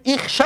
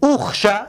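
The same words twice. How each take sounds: First: اخشه said as ixsha, opening on a short i; اخشه demonstrated as ixsha, i before the kh; kasra reading. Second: اخشه said as uxsha, opening on a short u; اخشه offered as uxsha, u before the kh; damma reading. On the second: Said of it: "اخشه یا که اخشه؟". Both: Shown as a demonstration.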